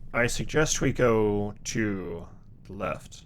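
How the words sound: It is said in a put-on Duke voice.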